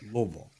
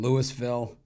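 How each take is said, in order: First: The name is said with fewer, clipped syllables. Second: The name is said with more syllables. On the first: This is how the locals say it. The speaker calls it right. "which is what the people there call it" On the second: This is how an outsider says it. The speaker calls it wrong. "or as Bitler calls them"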